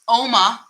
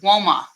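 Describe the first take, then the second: First: The name begins with a plain vowel sound. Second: The name begins with a W sound. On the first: "which most people seem to pronounce" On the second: "with a W"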